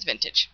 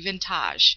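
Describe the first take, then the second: First: It is said like the ordinary word vintage. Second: It is said following its unusual spelling. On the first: This is how the brand name is actually said. The speaker calls it right. "but it is vintage" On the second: This is how the spelling suggests it is said. The speaker calls it wrong. "the way it's spelled, it should be vintage"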